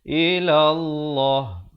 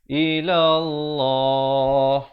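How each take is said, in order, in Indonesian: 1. Bunyi terakhir dipotong mendadak. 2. Bunyi terakhir ditahan selama dua ketukan. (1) "itu salahlah ya" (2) "pastikan waqaf dengan sekurang-kurangnya dua harakat"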